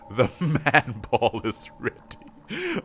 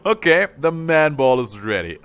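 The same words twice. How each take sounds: First: Laughing through it. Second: Said in the usual way. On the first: Real, not acted.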